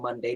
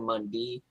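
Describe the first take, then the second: First: The word is said in a plain, standard way. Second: The word is said with a Southern twang. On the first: "Instead of saying Monday" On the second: "they said Monday"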